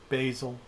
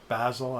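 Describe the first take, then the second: First: It is said with an American pronunciation. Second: It is said with a British pronunciation.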